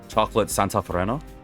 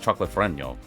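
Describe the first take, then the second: First: The name ends with a plain 'n' sound. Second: The name ends with an 'ny' sound. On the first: The speaker calls it wrong. "butchering saying" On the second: The speaker calls it right. "it's got the squiggly over the end"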